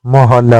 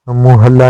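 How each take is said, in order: First: मोहल्ला starting with ओ; correct form. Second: मुहल्ला starting with a short उ; wrong form. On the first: Teacher giving the correct form, मोहल्ला. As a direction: say मोहल्ला with a clear मो. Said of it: "होता है". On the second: Teacher voicing the wrong form, मुहल्ला. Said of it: "नहीं होता है". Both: Shown as a demonstration.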